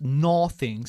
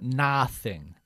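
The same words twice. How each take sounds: First: The first vowel is said with a less open jaw. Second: The first vowel is said with a lowered jaw. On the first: The speaker calls it wrong. "No decimos nothing" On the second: The speaker calls it right. "sino nothing. Nothing, bajando la mandíbula"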